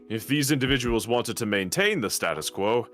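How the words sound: The stress is on maintain.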